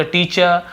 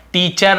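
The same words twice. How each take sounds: First: टीचर ending in 'chuh', no R; silent R. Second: टीचर with a full R at the end; final R sounded. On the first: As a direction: drop the final R of टीचर. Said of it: "र थोड़ा silent होता है". (टीचर का आख़िरी र silent) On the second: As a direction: pronounce the last R of टीचर. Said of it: "ना बोलकर". (टीचर का आख़िरी र पूरा) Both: Shown as a demonstration.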